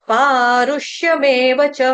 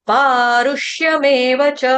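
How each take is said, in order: The two takes are said the same way.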